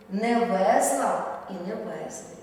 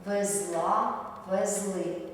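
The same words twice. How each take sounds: First: Везла and везли stressed on the first syllable, ВЕЗла, ВЕЗли; teacher models the mistake with the stress at the front; wrong stress. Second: Везла and везли stressed at the end, везЛА, везЛИ; teacher models the correct stress at the end. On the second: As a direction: lean on the last syllable of везла and везли. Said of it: "наголошуємо останній склад". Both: Shown as a demonstration.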